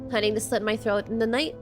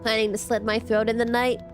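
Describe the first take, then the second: First: It is said in a cute, playful tone. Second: It is said in a serious, plain tone.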